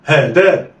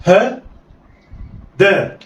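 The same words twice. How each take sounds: First: "ها دا" joined in one quick go; snatch "ها دا" with no pause; snatched together. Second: "ها" raised, long pause, then "دا"; letters sounded apart. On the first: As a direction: blend "ها دا" like one word. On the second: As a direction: say "ها" and "دا" as separate syllables. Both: Shown as a demonstration. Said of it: "اخطف".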